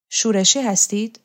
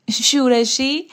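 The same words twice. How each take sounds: First: Said in the usual way. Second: Higher, rising echo of the word, a touch amused; lightly amused echo. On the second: A narrator's reading. Roksana echoes the rebel label put to her, lightly amused. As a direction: toss the word back as an amused question. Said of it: "رکسانا خندید".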